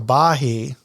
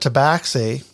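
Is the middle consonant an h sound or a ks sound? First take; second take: h sound; ks sound. First: The middle consonant is an h sound. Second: The middle consonant is a ks sound. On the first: The speaker calls it wrong. "Joe wanted to call it a tabahi" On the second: The speaker calls it right. "I called it rightfully so a tabaxi"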